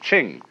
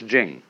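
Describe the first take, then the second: First: The word begins with a CH sound. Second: The word begins with a J sound. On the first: The speaker calls it wrong. "if there were, it would be pronounced Ching" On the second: The speaker calls it right. "but it's Jing. Like a J"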